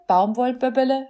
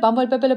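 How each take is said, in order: First: The word is spoken at a slow pace. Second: The word is spoken at a very fast pace.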